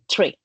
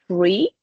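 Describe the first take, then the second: First: The word begins with a t sound. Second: The word begins with a th sound. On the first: "but in Irish it will be tree" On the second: "like uh, in American English is the th"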